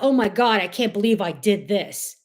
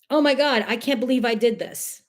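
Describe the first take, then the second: First: It sounds dismayed and self-critical. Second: It sounds delighted and proud. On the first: The speaker is upset with what they did. The speaker calls it wrong. "Instead of" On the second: The speaker is pleased with what they did. The speaker calls it right. "Just changing your tone"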